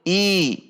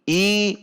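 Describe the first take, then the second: First: The vowel sounds like a clear i. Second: The vowel sounds like a clear i.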